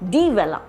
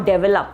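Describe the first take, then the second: First: The first syllable is said fully and separately. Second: The first syllable is clipped and run together. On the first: The speaker calls it right. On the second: The speaker calls it wrong.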